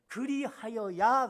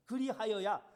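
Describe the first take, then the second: First: 그리하여야 said slowly, louder, rising at the end; weighty drawn-out 그리하여야; stressed and drawn out. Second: Said in the usual way. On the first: Shown as a demonstration. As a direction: stretch out 그리하여야 and lift the end. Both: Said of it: "그렇게 얘기합니다".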